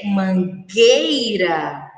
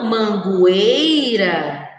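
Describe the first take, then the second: First: The U after the G is silent. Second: The U after the G is sounded. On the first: The speaker calls it right. "o correto é ler mangueira" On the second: The speaker calls it wrong. "e não mangueira"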